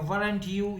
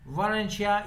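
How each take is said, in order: First: The two words are said separately and fully. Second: The two words blend into one 'werencha' sound. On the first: This is how non-native speakers say it. "वरंट तो हम लोग बोलते हैं जो non natives हैं।" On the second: This is how native speakers say it. "वरंशिया जो मैं आपको कह रहा हूँ, ये एडवांस या स्पोकन इंग्लिश है।"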